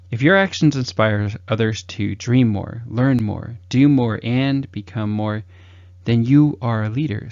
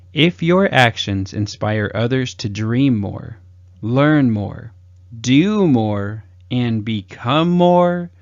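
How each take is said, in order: First: Said in the usual way. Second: Slow, weighted reading, each "more" stretched; inspirational quote. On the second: Acted. Coach reciting John Quincy Adams with slow emphasis. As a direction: lean into "dream more", "learn more", "do more".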